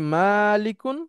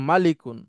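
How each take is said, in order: First: The first vowel is drawn out long. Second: The first vowel is kept short. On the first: "মিমের সাথে আলিফ আছে" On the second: "যেখানে আবার আলিফ নাই"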